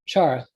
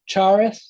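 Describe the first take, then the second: First: It is said quickly, the th fading away. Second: The final th sound is clearly pronounced. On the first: "if you say it quickly, ... the th starts to drop off" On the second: "you can hear the th"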